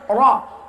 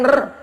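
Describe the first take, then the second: First: The r sound is thick and heavy. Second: The r sound is thin and light. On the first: The speaker calls it right. "Tafkhim, tebal" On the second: The speaker calls it wrong. "bukan r"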